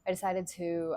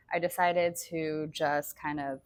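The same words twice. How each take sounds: First: Said in the usual way. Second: Talking around a hair in the mouth; words slightly blocked by a stray hair. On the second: Real, not acted. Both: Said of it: "sorry, I have a piece of hair in my mouth".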